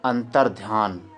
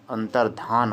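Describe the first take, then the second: First: Slow अंतर्ध्यान said with a य glide after ध; teacher demonstrates the common mistake; wrong form. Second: अंतर्धान with plain ध and no य; teacher gives the right word; correct form. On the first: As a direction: draw out the wrong अंतर्ध्यान with the extra य. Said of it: "अंतर्ध्यान नहीं". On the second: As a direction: say अंतर्धान cleanly, no य after ध. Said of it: "ये सही है।". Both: Shown as a demonstration.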